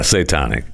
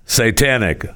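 First: "satanic" said as say-TAH-nik; broad ah in the middle of "satanic"; mispronounced. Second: "Satanic" said as say-TAN-ik, with the a of cat; corrected pronunciation. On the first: Real, not acted. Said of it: "I said it wrong again". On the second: Shown as a demonstration. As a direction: copy the model pronunciation, short a in "Satanic". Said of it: "Say it with me".

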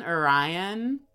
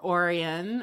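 First: Orion said "oh-RYE-un"; usual star-name pronunciation. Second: Orion said "OR-ee-un"; alternative pronunciation. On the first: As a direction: stress the middle syllable of Orion, like rye. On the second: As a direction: stress the first syllable of Orion, with an ee sound. Two pronunciations offered in turn. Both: Shown as a demonstration.

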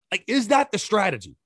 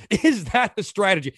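First: Said in the usual way. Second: Laughing through the repeated question; a short incredulous laugh as he asks it; disbelieving laugh. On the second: Real, not acted. Host laughing in disbelief at the coach's strategy, laughing.

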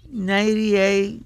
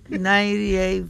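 No difference in how they are said.

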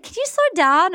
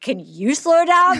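First: A light imitation of the request at normal speed; quoting her request. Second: Slow, drawn-out mocking echo; mock slow repeat. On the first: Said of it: "and she was like". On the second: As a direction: slowly repeat the request back, teasing. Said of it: "And I'm like".

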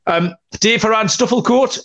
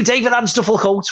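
First: Said in the usual way. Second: Put-on higher Scouse street seller's call, Liverpool accent. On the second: Calling out the fanzine name to passers-by, Liverpool accent. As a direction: sell it like a Liverpool fanzine hawker. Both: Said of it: "that was a Liverpool accent".

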